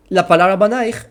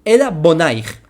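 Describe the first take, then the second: First: "banaich" with a clear open a in the first syllable; banaich, said as written. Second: "bonaich" with a stressed o in the first syllable, said louder; bonaich, the reread word. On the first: Teacher to students, reading "banaich" as written. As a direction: read "banaich" out as the text spells it. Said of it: "no la leas banaich". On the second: Teacher to students, giving the rereading "bonaich" loudly. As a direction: swap in the o of "bonaich" and land on it. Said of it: "al tikre banaich". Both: Shown as a demonstration.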